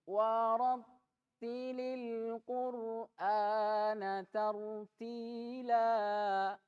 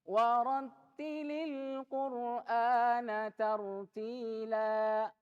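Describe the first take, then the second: First: It is recited slowly and drawn out. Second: It is recited at a medium pace. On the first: "At-tahqiq. Dengan lambat" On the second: "ini mulai lebih cepat daripada at-tahqiq"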